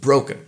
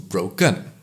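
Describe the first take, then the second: First: The stress is on the first syllable. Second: The stress is on the second syllable. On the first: "stress is denoted at the first syllable" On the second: "If we put the stress at the second syllable"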